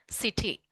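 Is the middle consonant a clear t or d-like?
clear t. The middle t is pronounced clearly.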